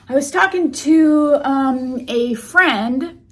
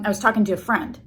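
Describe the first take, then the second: First: There is a hesitation pause before 'a friend'. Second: It flows without a pause before 'a friend'.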